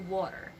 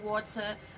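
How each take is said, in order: First: The middle consonant is a soft D-like tap. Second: The middle consonant is a strong, crisp T. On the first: The speaker calls it right. "it actually sounds like letter D, not a strong T" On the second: The speaker calls it wrong. "not water"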